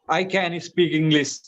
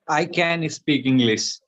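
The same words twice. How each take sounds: First: It is said with more enthusiasm and energy. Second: It is said plainly, without extra energy.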